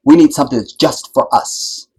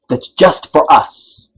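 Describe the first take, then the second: First: Said in the usual way. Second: "That's just for us" drawn out slowly, each word weighted; slow emphatic repeat. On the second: Shown as a demonstration. Repeating the demand so the audience hears it, slow and weighted.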